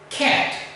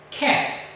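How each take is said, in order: Both takes have the same delivery.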